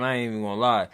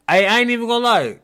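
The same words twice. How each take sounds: First: Said in the usual way. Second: "ain't" pushed higher and louder, whole line punched up; emphatic repeat. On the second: Shown as a demonstration. Host stressing "ain't" to his guest before the story. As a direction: lean hard on "ain't" the second time.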